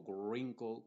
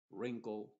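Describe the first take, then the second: First: Wrinkle said with an extra sound before the R, like grinkle; a mistaken W added to wrinkle; wrong pronunciation. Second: Wrinkle said as rinkle, starting on the R; correct English. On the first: Teacher imitates the wrong wrinkle with a W. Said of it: "o wrinkle con la W". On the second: Teacher models wrinkle from the R, W silent. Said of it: "desde la R hacia adelante". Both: Shown as a demonstration.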